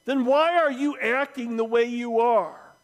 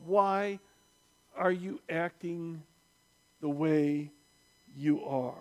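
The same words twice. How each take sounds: First: Heckler's louder, higher challenge from the crowd; indignant shouted question; shouting out. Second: Quietly probing, broken by long pauses; slow, weighty question. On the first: Acted. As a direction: call it out over a crowd. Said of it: "and shouting out". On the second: Real, not acted. Slow reflective repeat of shouted question.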